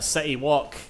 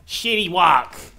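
First: The first word begins with a plain s sound. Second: The first word begins with a sh sound.

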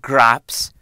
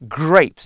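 First: The vowel sounds like the one in 'cat'. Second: The vowel sounds like the one in 'day'. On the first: The speaker calls it wrong. "not graps" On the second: The speaker calls it right. "That's how you say it"

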